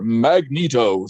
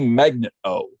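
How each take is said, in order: First: It sounds like one name, differently stressed. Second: It sounds like the word magnet plus O. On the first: The speaker calls it right. "we put a different emphasis on it" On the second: The speaker calls it wrong. "the word magnet and then the letter O after it"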